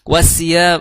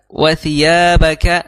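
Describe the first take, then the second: First: The consonant is a hissing s sound. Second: The consonant is a soft non-hissing th sound. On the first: The speaker calls it wrong. "itu sin. Maka salah" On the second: The speaker calls it right. "itu tidak ada terdengar tss"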